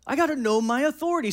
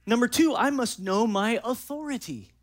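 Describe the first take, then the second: First: "gotta" punched high and loud, fast; stress on gotta. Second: Said in the usual way. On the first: Shown as a demonstration. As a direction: hit "gotta" hard and quick.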